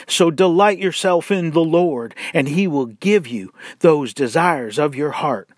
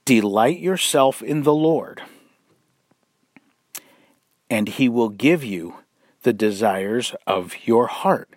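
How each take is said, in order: First: DELIGHT and GIVE pushed hard, as a slick promise; wolves' sales pitch. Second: Calm scripture reading that puts delight first; right emphasis. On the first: Retold or imitated. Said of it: "how this is presented by the wolves". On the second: Shown as a demonstration. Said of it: "putting the emphasis on the wrong syllable".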